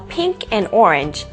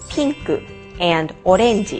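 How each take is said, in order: First: It is said with English pronunciation. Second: It is said with Japanese pronunciation.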